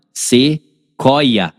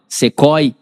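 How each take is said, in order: First: "Sequoia" slowly split as "se... coia"; sílabas separadas. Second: "Sequoia" split as "se-coi-ia", doubling the i glide; glide heard twice. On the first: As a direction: say "Sequoia" with a break after "se" and a drawn-out "coia". ("Sequoia" pausado, separando o "se" do "coia") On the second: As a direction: stretch "Sequoia" into "coi" plus a separate "ia". ("Sequoia" com i duplo: "se-coi-ia") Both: Shown as a demonstration. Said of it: "Parece que tem um I A".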